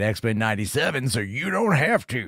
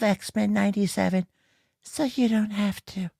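First: It is said loudly with lots of energy. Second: It is said quietly with very little energy. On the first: The speaker calls it right. "you say it with some oomph, some pizzazz, some fucking energy" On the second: The speaker calls it wrong. "she's like this so meek"

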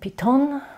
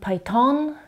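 First: It is said with a German pronunciation. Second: It is said with an American pronunciation. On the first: "Viele Deutsche sagen Python" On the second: "Amerikaner sagen Python"

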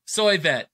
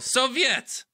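First: The first syllable sounds like soy. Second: The first syllable sounds like so. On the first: The speaker calls it wrong. "I can never pronounce it correctly" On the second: The speaker calls it right. "There you go"

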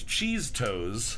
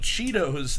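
First: It is said as cheese plus toes. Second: It is said plainly as chee-tos. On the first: The speaker calls it wrong. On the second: The speaker calls it right.

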